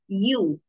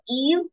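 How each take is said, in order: First: The word begins with a 'y' sound. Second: The word begins with an 'ee' sound. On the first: The speaker calls it right. "it's you. It's pronounced as you" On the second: The speaker calls it wrong. "or Eve"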